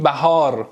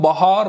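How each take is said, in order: First: "بهار" as bæhaar, short front first a; Persian pronunciation. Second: "بهار" as bahar, open back first a; Turkish pronunciation. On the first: («بهار» به فارسی، بَهار) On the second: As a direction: say "بهار" like an Istanbul Turk. («بهار» به ترکی، باهار) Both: Shown as a demonstration.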